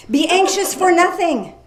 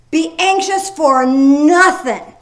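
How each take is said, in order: First: Said in the usual way. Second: Gasp, then slow and louder on ANXIOUS; emphatic repeat. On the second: Shown as a demonstration. Preacher answering the mock worrier, slow and emphatic. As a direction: lean hard into anxious, slowly. Re-reading the verse after a gasp.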